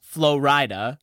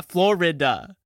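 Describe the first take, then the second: First: Florida as flo-RYE-duh; variant pronunciation. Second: Florida as FLOR-ih-duh, each syllable distinct; every syllable pronounced. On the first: Listing ways to say Florida, flo-RYE-duh. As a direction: say Florida like "flow rider", long i. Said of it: "four different ways to say Florida". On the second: Agreeing on regular Florida, every syllable sounded. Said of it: "pronouncing all of the syllables". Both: Shown as a demonstration.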